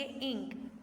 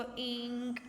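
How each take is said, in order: First: इंक with a short, crisp i; correct short vowel. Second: इंक with the i drawn out too long; drawn-out wrong इंक; wrong long vowel. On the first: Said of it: "हम इसको पढ़ेंगे इंक". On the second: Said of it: "हम ये तो नहीं ना पढ़ सकते". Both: Shown as a demonstration.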